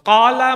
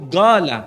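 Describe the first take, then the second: First: The word begins with a deep 'q' sound. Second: The word begins with a hard 'g' sound. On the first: This is the standard Arabic form. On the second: This is how Yemeni speakers say it.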